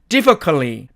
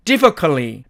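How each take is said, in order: First: The t sound is dropped and vowels reduce. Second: The same.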